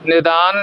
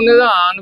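First: ਨਿਦਾਨ with a plain ਦ; ਨਿਦਾਨ said quickly as "ni-daan"; mistaken plain D. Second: ਨਿਧਾਨ with the sound of ਧ; ਨਿਧਾਨ as "ni-dhaan"; aspirated DH. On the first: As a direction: drop the DH in ਨਿਦਾਨ to a simple D. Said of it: "ਦੱਦੇ ਨਾਲ ਨਹੀਂ ਬੋਲਣਾ". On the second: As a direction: give ਨਿਧਾਨ its DH, not a plain D. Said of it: "ਧੱਦੇ ਨਾਲ". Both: Shown as a demonstration.

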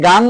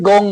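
First: গাং with long "aa"; open GAANG. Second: গং with rounded "o"; rounded GONG. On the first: Teacher telling Bengali speakers either works, গাং with open "aa". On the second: Teacher telling Bengali speakers either works, গং with rounded "o". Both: Shown as a demonstration. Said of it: "একই ব্যাপার".

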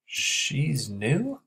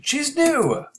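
First: "She's new?" with a rising question tune on "new"; curious, rising "She's new?"; asked as a question. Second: "She's new!" yelled much higher and louder; a big excited scream of "She's new!"; screamed exclamation. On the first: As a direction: let "new" lift at the end like a question. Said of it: "he asked". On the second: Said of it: "he screamed". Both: Shown as a demonstration.

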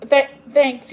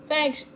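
First: Louder, hearty call; yelled thanks. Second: Higher call, no extra volume; half-hearted called-out thanks; understated yell. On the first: Samantha thanking the strawberry man, yelling it out. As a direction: call it out over distance. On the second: Samantha thanking the strawberry man, lightly called out. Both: A narrator's reading. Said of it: "yelled Samantha".

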